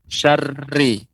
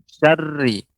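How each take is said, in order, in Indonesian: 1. R digetarkan dengan banyak getaran kuat. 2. R digetarkan hanya dengan sedikit getaran. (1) "Ra-nya dia eh, lebih banyak getarannya" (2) "untuk ra pengucapannya dia tidak banyak getaran"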